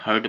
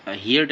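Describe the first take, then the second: First: "heard" said as HURD, one short syllable; correct pronunciation. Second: "heard" mispronounced as HEER-d, with the vowel of "hear"; wrong pronunciation. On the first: Teacher giving students the second form, "heard" pronounced HURD. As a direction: say "heard" to rhyme with "bird". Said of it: "heard पढ़ते हैं". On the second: Teacher showing students the misreading, "heard" said as HEER-d. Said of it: "इसको हम heard नहीं पढ़ते". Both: Shown as a demonstration.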